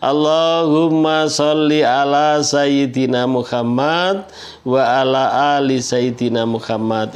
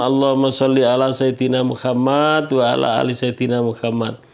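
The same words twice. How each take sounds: First: The phrase is recited slowly and deliberately. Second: The phrase is recited at a normal pace.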